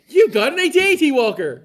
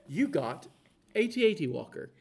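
First: It is said excitedly, with energy. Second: It is said flatly, without excitement.

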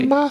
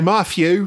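First: It is said the way the Queen says it. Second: It is said in a British accent, th as f.

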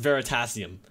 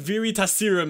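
First: The name is said as 'Veritasium'. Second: The name is said like 'Verita Serum'. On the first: The speaker calls it right. "it's pronounced Veritasium" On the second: The speaker calls it wrong. "He pronounced it Veritasium"

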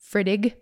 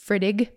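First: The word is said as two syllables. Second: The same.

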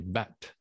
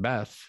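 First: The name ends with a t sound. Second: The name ends with a th sound. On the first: "the natives couldn't say the TH. Instead of saying Beth, they would say Bet" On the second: "Instead of saying Beth"

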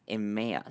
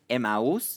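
First: The name is said with English sounds. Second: The name sounds like Spanish 'a mouse'. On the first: "In English, I'm going to see if I can say it right" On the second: "In Spanish, it's Emmaus"

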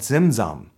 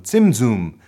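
First: The word is said in an anglicized way. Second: The word is said in a Hebrew-style way. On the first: The speaker calls it wrong. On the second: The speaker calls it right.

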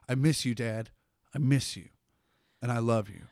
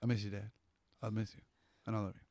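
First: It is said with heartfelt emotion. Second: It is said flatly, without emotion.

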